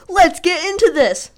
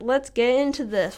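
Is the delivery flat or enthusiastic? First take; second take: enthusiastic; flat. First: It is said loudly, with high energy. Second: It is said flatly, with little energy. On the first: "I don't think I could ever do that. I already hurt my voice" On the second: "I'm not enthusiastic"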